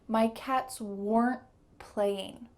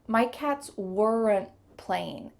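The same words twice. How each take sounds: First: Weren't ends in a stop T, no added vowel. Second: Weren't has an extra schwa vowel added. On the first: The speaker calls it right. "just a stop T at the end" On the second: The speaker calls it wrong. "we added a schwa sound ... not natural"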